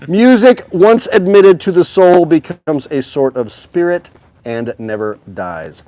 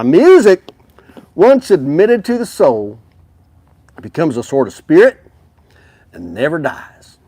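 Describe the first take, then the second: First: It is read in the speaker's usual accent. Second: It is read in a put-on Western accent.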